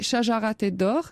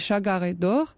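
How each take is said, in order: First: It is said in classical Arabic pronunciation. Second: It is said in Egyptian Arabic pronunciation. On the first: "en arabe classique" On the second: "En Égypte, on dit"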